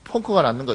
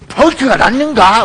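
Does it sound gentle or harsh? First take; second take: gentle; harsh. First: It is said in a gentle, ordinary way. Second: It is said in a harsh, scary way.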